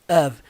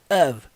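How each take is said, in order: First: The word ends with a v sound. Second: The same.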